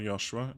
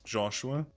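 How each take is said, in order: First: The name is said with German sounds. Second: The name is said with English sounds. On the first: "if you're from Germany" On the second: "my real name is"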